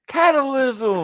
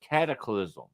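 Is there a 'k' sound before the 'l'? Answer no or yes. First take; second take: no; yes. First: No 'k' sound comes before the 'l'. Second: A 'k' sound comes right before the 'l'. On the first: The speaker calls it wrong. "No matter how many times he would always" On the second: The speaker calls it right. "it's not a difficult word to say"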